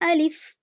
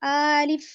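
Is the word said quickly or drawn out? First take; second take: quick; drawn out. First: The word is said quickly and softly. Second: A vowel in the word is drawn out long. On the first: The speaker calls it right. "जल्दी पढ़ें, नरमी से पढ़ें" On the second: The speaker calls it wrong. "खींच कर नहीं पढ़ना है"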